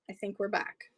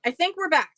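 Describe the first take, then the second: First: Tentative. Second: Higher, louder, rising then falling; excited realisation. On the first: Streamer to viewers after a dropout, tentative. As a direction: say it quietly, not yet sure. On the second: Streamer to viewers as the stream returns, excited. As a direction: call it out with relief. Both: Real, not acted.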